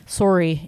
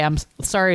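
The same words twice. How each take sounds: First: "sorry" as Canadian "sore-ee"; Canadian accent. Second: Said in the usual way. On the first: Retold or imitated. Imitating the actor in Ghostbusters, Canadian accent. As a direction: round the first vowel of "sorry" like a Canadian. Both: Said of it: "using his Canadian accent to say".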